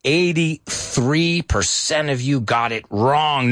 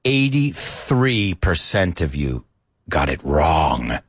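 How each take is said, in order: First: Slow, drawn-out disappointed announcement; a mock-heavy reading of the score; slow lament. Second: Slow, low, mock-tragic lament; eighty-three percent drawn out in fake sorrow; mock crying. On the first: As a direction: spell out the bad news slowly. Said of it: "I say, no applause". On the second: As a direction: grieve over the score, hammed-up. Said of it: "I'm really, really crying".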